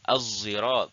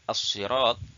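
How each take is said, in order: First: The first consonant is a z-like sound. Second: The first consonant is a plain emphatic s.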